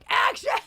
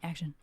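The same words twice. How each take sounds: First: It is said loudly, as a yell. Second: It is said quietly, at normal volume.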